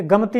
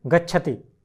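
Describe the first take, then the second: First: गमति said as rejected wrong form; wrong form gamati. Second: गच्छति said with clear च्छ; correct form gacchati. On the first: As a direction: say गमति as the mistake to avoid. (गलत रूप गमति) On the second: (सही रूप गच्छति) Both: Shown as a demonstration. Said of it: "गमति नहीं".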